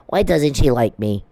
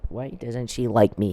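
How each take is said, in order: First: Mock lament of a rejected suitor; mocking imitation. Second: Said in the usual way. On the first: Mocking the man who can't get a date, mock-pleading. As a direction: imitate him feeling sorry for himself. Mimics a rejected man's complaint.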